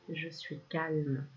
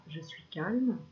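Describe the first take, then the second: First: Calm mantra. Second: Said in the usual way. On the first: Shown as a demonstration. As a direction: let each word settle, slowly. (mantra lent et apaisé) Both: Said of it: "Tu peux répéter dans ta tête ou à voix haute".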